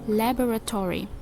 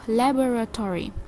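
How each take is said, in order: First: The word has two stressed syllables. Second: The word has two stressed syllables.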